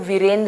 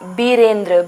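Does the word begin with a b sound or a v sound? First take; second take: v sound; b sound. First: The word begins with a v sound. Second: The word begins with a b sound. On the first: The speaker calls it right. "व आएगा यहाँ पे, तो वीरेंद्र हो जाएगा" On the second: The speaker calls it wrong. "बीरेंद्र नहीं होता है, ब नहीं आएगा"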